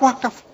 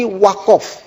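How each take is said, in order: First: The second vowel is a plain 'a'. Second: The second vowel sounds like 'o', Madurese style.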